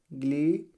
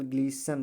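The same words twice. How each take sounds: First: ग्लीस्टन split as "glee", long gap, "sten"; wrong pronunciation. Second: ग्लीसन as "glee-san", t silent; correct pronunciation. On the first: Teacher dwelling on a wrong reading, t sounded. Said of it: "नहीं पढ़ा जाएगा". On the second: Teacher giving students the right reading, silent t. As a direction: say ग्लीसन smoothly with no t. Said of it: "केवल ग्लीसन पढ़ा जाएगा". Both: Shown as a demonstration.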